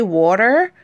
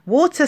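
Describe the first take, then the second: First: "water" said American, with the r at the end; American-twang water. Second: "Water" in British English, with no r at the end; English-accent water. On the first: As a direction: say "water" like an American, ending on "ter" with the r sounded. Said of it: "if you say water". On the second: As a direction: say "Water" in an English accent, ending in a plain "tuh". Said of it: "with an English accent". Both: Shown as a demonstration.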